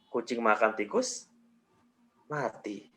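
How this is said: There is a pause after "tikus". "Jeda berikutnya setelah tikus"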